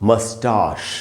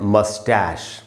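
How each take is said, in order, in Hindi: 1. यह ब्रिटिश उच्चारण में बोला गया है। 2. यह अमेरिकी उच्चारण में बोला गया है। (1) "ब्रिटिश इंग्लिश में पढ़ेंगे" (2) "अमेरिकन इंग्लिश में इसको बोलते हैं"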